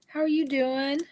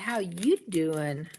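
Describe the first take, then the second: First: It is said in a plain, ordinary voice. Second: It is said in a Joey-style impression.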